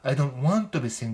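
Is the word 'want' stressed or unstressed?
stressed. The word want is strongly stressed. Insists strongly on not wanting to be single. "want を強く言う"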